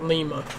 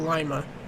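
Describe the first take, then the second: First: Lima is pronounced the Peruvian way. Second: Lima is pronounced the local Ohio way. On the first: It names the capital of Peru. "not Lima, because Lima is uh, that's a Peru, Perunian ... way or pronunciation" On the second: It names the city in Ohio. "us locals from Lima, Ohio. We call it in, we call it Lima"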